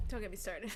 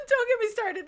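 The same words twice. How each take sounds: First: Sighing, half laughing. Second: Higher, louder, laughing exasperation; fed-up loud repeat; exasperated outburst. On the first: Sighing start of rant. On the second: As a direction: burst out after the laugh. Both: Real, not acted.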